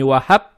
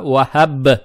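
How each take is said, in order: First: The final b is devoiced, sounding like p. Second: The final b keeps its voicing. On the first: The speaker calls it wrong. "здесь букву Ба не оглушаем, то есть не вахаб" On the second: The speaker calls it right. "а вахаб"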